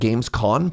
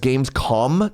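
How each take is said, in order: First: The name ends with an n sound. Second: The name ends with an m sound. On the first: The speaker calls it wrong. "not Gamescon, pardon me" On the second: The speaker calls it right. "It's Gamescom"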